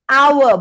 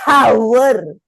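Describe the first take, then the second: First: The word begins with a vowel, no h. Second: The word begins with a spoken h sound. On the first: The speaker calls it right. "We cannot sebut H. We say hour" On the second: The speaker calls it wrong. "bukan hour"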